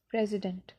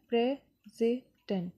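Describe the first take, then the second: First: Said in the usual way. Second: "president" slowly split as प्रे-सि-डेंट; pauses between pray, सि and dent; syllable by syllable. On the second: Shown as a demonstration. (President के तीनों syllable अलग-अलग) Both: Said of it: "इसमें भी तीन syllable है".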